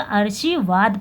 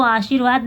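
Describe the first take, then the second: First: "आशीर्वाद" with the r moved before "शी", as aar-shee-vaad; misplaced r. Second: Said in the usual way. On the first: Shown as a demonstration. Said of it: "इसको पढ़ाया जाएगा". ("आशीर्वाद" में र को शी से पहले बोलें) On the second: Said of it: "इसको आशीर्वाद नहीं पढ़ा जाएगा".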